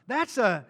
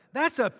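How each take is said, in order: Both takes have the same delivery.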